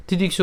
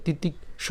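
First: "তিতিক্ষ" run together without a gap; said as one word. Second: "তিতিক্ষ" split, with a gap before the last syllable; broken apart. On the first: Teacher showing learners the preferred way, "তিতিক্ষ" in one piece. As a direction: join every syllable of "তিতিক্ষ". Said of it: "এভাবে না বলে তিতিক্ষ উচ্চারণ করছি". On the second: Teacher showing learners what to avoid, "তিতিক্ষ" broken in two. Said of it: "ভেঙে না বলে". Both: Shown as a demonstration.

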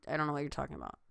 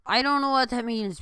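First: Said in the usual way. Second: Loud, higher, baffled protest; exasperated outburst. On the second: Real, not acted. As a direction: blurt it out in disbelief.

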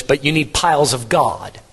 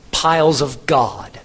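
First: Said in the usual way. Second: Piles drawn out slowly and leaned on, then of God; preacher correcting the congregation, slow emphatic Piles; slow stress on piles. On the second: Shown as a demonstration. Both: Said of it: "Not gods".

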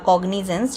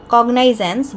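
First: কগনিজেন্স with "ni" as the middle syllable; alternative pronunciation. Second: কগনাইজেন্স with "nai" as the middle syllable; alternative pronunciation. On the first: Teacher offering students either pronunciation, alternative কগনিজেন্স with "ni". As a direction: say কগনিজেন্স with an ee sound after the g-n. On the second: Teacher offering students either pronunciation, alternative কগনাইজেন্স with "nai". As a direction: say কগনাইজেন্স with a long-i glide after the g-n. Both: Shown as a demonstration. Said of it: "যে কোনো একটা উচ্চারণ হবে".

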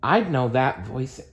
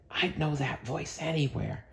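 First: Said in the usual way. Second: Hushed, much softer whisper; whispered in alarm, much softer. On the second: Acted. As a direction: breathe it out in a frightened hush. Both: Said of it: "Mike whispered".

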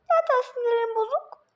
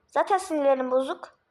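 First: High squeaky mimicking of the grumpy line; mocking whiny repeat. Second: Said in the usual way. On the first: Teasing a friend by echoing him in a high mocking whine. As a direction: parrot it back in a high whiny mock voice. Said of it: "Tekrar etme beni".

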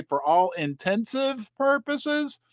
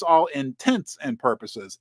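First: "intensive" said as one word, slow and deliberate; wrong version. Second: Said in the usual way. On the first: Shown as a demonstration. Host admitting the phrase he used to mangle, slow. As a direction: draw out "For all intensive purposes" like the old mistake. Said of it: "I used to say".

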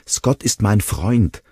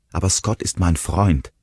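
First: Slow, louder protest, higher. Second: Said in the usual way. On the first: A narrator's reading. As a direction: insist on his loyalty, pleading. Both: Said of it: "protestierte Will".

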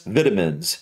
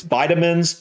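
First: Vitamins lower, as VIT-uh-mins; short-i pronunciation. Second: Vitamins higher, as VY-tuh-mins; long-i pronunciation. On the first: Reactor showing the other way to say it, short-i pronunciation. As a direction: say vitamins with the i as in "bit". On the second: Reactor showing he sees it both ways, long-i pronunciation. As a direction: say vitamins with the i as in "eye". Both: Shown as a demonstration. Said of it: "I can see it both ways".

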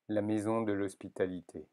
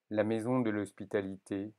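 Both takes have the same delivery.

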